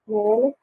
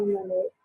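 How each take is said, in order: First: Malik as MEL-ik, short clear second syllable; first-syllable stress. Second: Malik as muh-LEH, weak first vowel, faint final k; second-syllable stress. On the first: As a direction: say Malik with the weight up front, MEL-ik. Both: Shown as a demonstration. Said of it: "Malik or Malik?".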